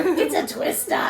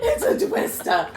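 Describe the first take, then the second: First: Put-on high Brooklyn accent, laughing. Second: Excited Brooklyn Dorothy imitation; squealed, high and excited. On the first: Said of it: "In your Brooklyn accent". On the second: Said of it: "I love how, how excited you are".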